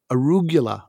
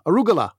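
First: "arugula" with a y-glide after the g; "arugula" with a "gyu" in the middle; own pronunciation. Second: "arugula" with a plain hard g, no y-glide; "arugula" with "guh" in the middle; co-host's pronunciation. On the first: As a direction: say "arugula" as a-ROO-gyuh-la. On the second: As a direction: say "arugula" as a-ROO-guh-la, quickly. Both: Shown as a demonstration. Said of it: "as you pronounce it".

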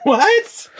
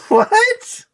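First: High squeaked outraged what; shocked disbelief. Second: Even higher squeal of outrage; shocked disbelief. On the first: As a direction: yelp it in disbelief. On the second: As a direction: shriek it in disbelief. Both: Real, not acted. Shocked reaction to the case.

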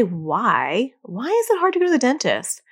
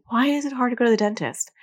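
First: Accusatory why. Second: Said in the usual way. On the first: Shown as a demonstration. Parent grilling a child about the dentist, accusatory. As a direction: demand the reason, putting the child on the spot. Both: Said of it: "Even if you don't say it like that".

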